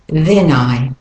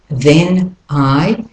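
First: The words run together smoothly. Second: The words are said separately.

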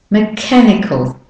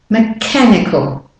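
Both takes have the same delivery.

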